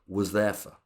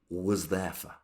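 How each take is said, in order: First: The words are squashed together and reduced. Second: The same.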